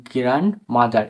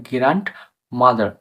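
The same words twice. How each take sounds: First: গ্র্যান্ডমাদার said as gran-madar, no D; silent D. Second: গ্র্যান্ডমাদার with a hard stop, grant-madar; mistaken pronunciation. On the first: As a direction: drop the ড from গ্র্যান্ডমাদার, N straight into M. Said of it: "এখানে ডি উচ্চারণ করে কিন্তু না". (গ্র্যান্ডমাদার-এ ড বাদ দিয়ে গ্র্যানমাদার উচ্চারণ) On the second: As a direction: sound the ড in গ্র্যান্ডমাদার before the M. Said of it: "কেউ কেউ উচ্চারণ করে". (গ্র্যান্ডমাদার-এ ড স্পষ্ট উচ্চারণ করে) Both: Shown as a demonstration.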